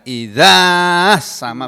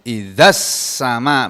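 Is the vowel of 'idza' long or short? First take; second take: long; short. First: The vowel after the dh sound is long. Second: The vowel after the dh sound is short. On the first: The speaker calls it wrong. "bukan begitu" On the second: The speaker calls it right. "Zalnya panjangnya hilang pokoknya"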